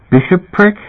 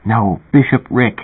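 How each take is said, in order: First: Bishopric? with a puzzled high rise; wrong pronunciation. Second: Bishopric slowed and spelled out, falling; correct pronunciation. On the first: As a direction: stumble over Bishopric? as a question. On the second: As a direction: correct them: say bishopric slowly and firmly. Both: A narrator's reading. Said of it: "You're not pronouncing it right".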